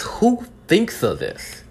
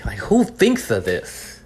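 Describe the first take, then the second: First: Much higher, very slow incredulous question; high, slow disbelief. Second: Drawn-out, incredulous question; slow disbelief. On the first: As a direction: pitch it way up in stunned disbelief. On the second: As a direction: let the disbelief stretch each word. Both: Real, not acted. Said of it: "'cause I'm so angry".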